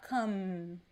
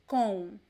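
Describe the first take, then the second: First: It ends with the lips closing on M. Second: It ends in a nasal vowel, lips apart. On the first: The speaker calls it wrong. "It is not come" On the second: The speaker calls it right. "there is no M sound. It is a nasal sound"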